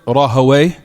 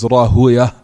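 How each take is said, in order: First: The name ends with an 'away' sound. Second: The name ends with a 'uya' sound. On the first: "some people utter it Rahaway" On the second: "some of it is Rahuya"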